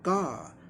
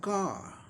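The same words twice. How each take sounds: First: The final r sound is silent. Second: The same.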